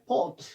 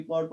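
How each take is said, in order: First: पॉट with no R before T; silent R. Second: पॉट with an R before T, "part"; wrongly sounded R. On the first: Teacher models the word, R silent in पॉट. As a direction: say पॉट, dropping the R. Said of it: "हमें और को नहीं पढ़ना है". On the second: Teacher shows a wrong reading, R sounded in पॉट. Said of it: "that is wrong।". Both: Shown as a demonstration.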